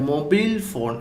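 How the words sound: It is said with an American English accent. "അമേരിക്കക്കാരെ മൊബൈൽ ഫോൺ എന്നാണ് പറയുന്നത്"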